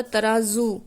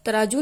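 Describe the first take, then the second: First: "तराजू" as taraazu, with a buzzing z; "तराजू" pronounced with the nukta z; correct z sound. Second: "तराजू" as taraaju, with j for z; mispronounced "तराजू" without the nukta z; wrong j sound. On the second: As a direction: show the mistake: "तराजू" ending in -ju. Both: Shown as a demonstration. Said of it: "तराजू नहीं होता".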